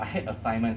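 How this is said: It is said calmly, with little feeling. The dislike is only slight.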